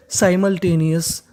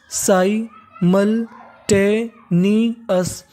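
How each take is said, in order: First: Said in the usual way. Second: simultaneous stretched out very slowly, every syllable drawn long. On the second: Shown as a demonstration. Teacher modelling the whole word slowly for students. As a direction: spell simultaneous out in slow motion. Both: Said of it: "तो पूरी meaning क्या बन गई हमारी?".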